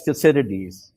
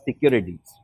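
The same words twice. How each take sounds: First: "Thucydides" with an S sound for the C; soft-C Thucydides. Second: "Thucydides" with a K sound for the C; hard-C Thucydides. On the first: Retold or imitated. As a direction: pronounce "Thucydides" as thoo-SID-ih-deez, American friends' way. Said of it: "they pronounce it as". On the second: Shown as a demonstration. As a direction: pronounce "Thucydides" as thoo-KID-ih-deez, hard C. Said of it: "you pronounced it as".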